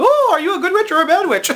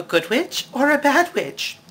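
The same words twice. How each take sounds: First: Very high, loud, fast ditzy squeal; shrieking bubble-headed fairy, pitched way up; airhead Glinda. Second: Lightly voiced Glinda. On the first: Retold or imitated. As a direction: play her dizzy from too little oxygen in the bubble. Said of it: "doesn't have enough oxygen". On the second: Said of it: "she asks Dorothy".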